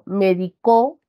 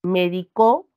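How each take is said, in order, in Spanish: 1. El acento está en la última sílaba. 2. El acento está en la última sílaba.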